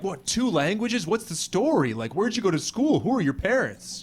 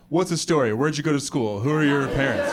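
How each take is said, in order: First: Higher-pitched, impressed questioning; impressed amazement. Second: The same questions, little awe; underwhelmed, everyday-pitched questions; unimpressed questioning. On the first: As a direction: fire off curious questions in awe. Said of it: "in the U S, people are like". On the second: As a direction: ask with no amazement. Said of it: "If you have two languages here, people are like". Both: Acted.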